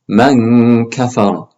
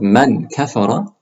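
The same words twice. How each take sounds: First: The n is hidden with a nasal hum. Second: The n is fully and clearly pronounced. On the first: The speaker calls it right. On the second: The speaker calls it wrong.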